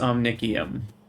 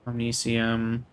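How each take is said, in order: First: The middle consonant is a hard k sound. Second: The middle consonant is a soft s sound. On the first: The speaker calls it right. "I was told it's Omnicium" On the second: The speaker calls it wrong. "I just keep thinking the C is a soft C"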